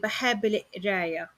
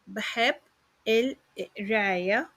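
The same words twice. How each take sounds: First: The phrase is said quickly and run together. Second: The phrase is said slowly and carefully.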